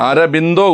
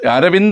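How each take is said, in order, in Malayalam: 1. B ശബ്ദത്തോടെയാണ് പറയുന്നത്, അവസാനം -indo. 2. V ശബ്ദത്തോടെയാണ് പറയുന്നത്, അവസാനം -inda. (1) "ബായാണ്, ബാ ഇന്ദല്ല, ഇന്ദോയാണ്" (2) "ആ പേര് മൊത്തം നമ്മൾ തെറ്റാ പറയുന്നത്"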